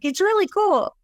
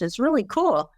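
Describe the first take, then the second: First: It is said at the loudest volume. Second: It is said at a moderate volume. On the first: "say it louder and louder" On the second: "say it louder and louder"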